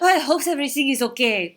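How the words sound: It is said in a French accent.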